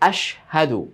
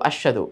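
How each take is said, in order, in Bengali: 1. শ-এর পরের হ ধ্বনিটি স্পষ্টভাবে উচ্চারিত হয়। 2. শ-এর পরের হ ধ্বনিটি প্রায় শোনাই যায় না। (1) "সেই দুইটা হরফের ভিন্নতা যেন আলাদাভাবে স্পষ্টভাবে হয়" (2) "হাটা যে এখানে আছে বলাই যায় না বা বুঝাই যায় না"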